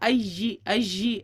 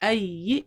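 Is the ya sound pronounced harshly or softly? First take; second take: harshly; softly. First: The ya is pressed hard between the teeth. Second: The ya is said gently without tension. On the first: The speaker calls it wrong. "ऐसे नहीं होना चाहिए" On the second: The speaker calls it right. "नरमी से पढ़ा जाएगा, सॉफ्टली पढ़ा जाएगा जी"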